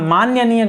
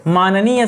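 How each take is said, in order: First: मान्यनीय with an extra ya; wrong form. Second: माननीय said clearly as maan-nee-ya; correct form. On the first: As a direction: say मान्यनीय as the common mistake. (मान्यनीय गलत उच्चारण) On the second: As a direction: slowly spell out माननीय as the right word. (माननीय सही उच्चारण में) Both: Shown as a demonstration. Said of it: "मान्यनीय गलत हो जाता है".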